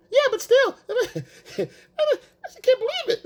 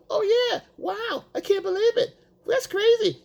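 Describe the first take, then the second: First: Much higher, slow, laughing amazement; mock gushing, laughing. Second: Much higher, over-the-top wow; mock amazement. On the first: Boyfriend still gushing while she shrugs it off, much higher and slow with laughter. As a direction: stretch it out, laughing through the fake awe. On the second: Boyfriend overreacting to her story, much higher mock amazement. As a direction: squeal with fake amazement.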